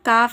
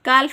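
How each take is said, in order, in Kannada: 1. L ಶಬ್ದ F ಗಿಂತ ಮೊದಲು ಸೈಲೆಂಟ್ ಆಗಿರುತ್ತದೆ. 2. L ಶಬ್ದ F ಗಿಂತ ಮೊದಲು ಉಚ್ಚರಿಸಲಾಗುತ್ತದೆ. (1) "ಎಲ್ ಸೈಲೆಂಟ್ ಆಗುತ್ತೆ" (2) "ಕಾಲ್ಫ್ ಅಂತ ಹೇಳ್ಬಾರ್ದು, ಉಚ್ಚರಿಸಬಾರ್ದು"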